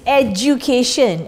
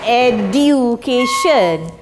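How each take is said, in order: First: The d is said like a j sound. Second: The d is said as a plain d. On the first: The speaker calls it right. "it's as if you have got this word D Z J it's education" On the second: The speaker calls it wrong. "the pronunciation is not education"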